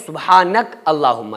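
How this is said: There is a break between the two words.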